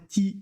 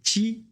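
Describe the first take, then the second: First: The t is a plain, crisp t sound. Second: The t has a slight ch-like hiss. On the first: The speaker calls it wrong. "on ne fait pas ti" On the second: The speaker calls it right. "c'est ti"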